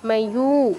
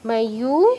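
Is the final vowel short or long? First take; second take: long; long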